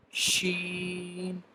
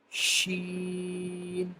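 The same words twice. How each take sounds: The two takes are said the same way.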